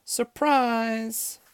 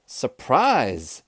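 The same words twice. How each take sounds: First: Very high, held-out cheer; high-pitched celebratory call; group surprise shout. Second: Loud, punchy surprise call; loud, moderately raised exclamation; surprise shout. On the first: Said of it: "all the ladies shouted". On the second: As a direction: shout it with a falling end. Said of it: "shouted Amelia Bedelia". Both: A narrator's reading.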